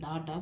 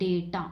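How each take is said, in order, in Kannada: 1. ಮೊದಲ ಸಿಲೆಬಲ್ನಲ್ಲಿ ತೆರೆದ 'ah' ಸ್ವರ ಇದೆ. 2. ಮೊದಲ ಸಿಲೆಬಲ್ನಲ್ಲಿ 'ay' ಸ್ವರ ಇದೆ. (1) "ಸಿ maximum people will pronounce this as ಡಾಟಾ" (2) "but it is actually pronounced as ಡೇಟಾ"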